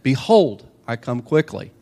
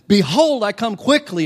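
First: It is said calmly, with low energy. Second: It is said loudly, with a lot of energy.

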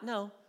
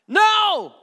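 First: It is said softly and casually. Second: It is said forcefully, with strong emphasis.

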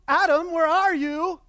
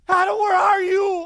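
First: It is said calmly, like casually searching. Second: It is cried out in anguish and heartbreak.

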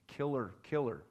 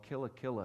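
First: It is said with an American pronunciation, like 'killer'. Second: It is said with a local, non-American pronunciation.

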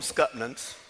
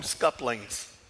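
First: The word is said with a t and ends in -nans. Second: The word is said with an l and ends in -lings. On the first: This is how the speaker's own community said it. "We called them Scutnans" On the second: This is how people in another region say it. "some of the folks in Middle Georgia call them scuplings"

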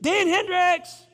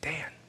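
First: The name is shouted loudly. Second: The name is said softly and quietly.

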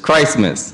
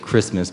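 First: The first syllable sounds like 'Christ'. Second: The first syllable sounds like 'Chris'. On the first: The speaker calls it right. "but it's Christmas. It's all about Christ" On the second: The speaker calls it wrong. "some people say Christmas"

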